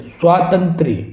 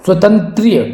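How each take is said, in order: First: स्वातंत्र्य with long aa after sw; correct pronunciation. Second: स्वतंत्रीय with short first a, long ee; wrong pronunciation. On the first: Teacher giving students the correct word, स्वातंत्र्य as "swaa-tantrya". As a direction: say स्वातंत्र्य with a drawn first vowel, "swaa-tantrya". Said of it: "तो ये आपका शुद्ध हो गया". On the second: Teacher showing a common error, स्वतंत्रीय as "swa-tantreeya". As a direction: say स्वतंत्रीय as "swa-tan-tree-ya". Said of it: "ये भी बिल्कुल गलत है". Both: Shown as a demonstration.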